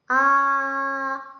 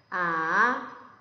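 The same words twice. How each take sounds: First: The pitch stays high and level. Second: The pitch dips down then rises. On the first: "아 하면 그 일성이고요" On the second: "내려갔다 올라가면 돼요"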